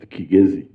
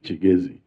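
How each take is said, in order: First: The name begins with a hard 'k' sound. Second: The name begins with a 'ch' sound. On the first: The speaker calls it right. "it's pronounced Kigezi" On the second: The speaker calls it wrong. "because in Chiganda K I is pronounced as Chi, many people now call it Chigezi"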